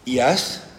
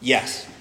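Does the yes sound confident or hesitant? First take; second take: hesitant; confident. First: It is said with hesitation, unsure. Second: It is said confidently and firmly.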